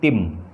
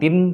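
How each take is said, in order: First: The syllable ends with an m sound. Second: The syllable ends with an n sound. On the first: The speaker calls it right. "tetapi tim" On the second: The speaker calls it wrong. "bukan tin"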